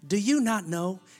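It sounds soft, warm and encouraging. It lifts up someone who has been beaten down. "You could say it like Joel Osteen"

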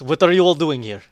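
It is said in a performed character voice. "Would you like to say it in your voice?"

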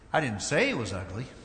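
The stress is on the word 'say'. The speaker may have implied it without saying it. "Might have implied he was ugly, but I didn't say it"

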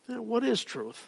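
The question sounds thoughtful. The asker is pondering what truth is. "Almost in a thoughtful way, like trying to ponder that"

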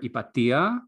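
The name is pronounced the Greek way. "In Greek, I would call her Ipatia"

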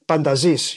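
The name is said with Greek pronunciation. "in Greek you would say Pantazis"

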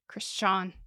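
The name is said with a German accent.

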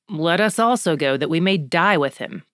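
The line is said in a dry, sarcastic tone. He thinks going back is a ridiculous idea. "Or if it's more sarcastic"

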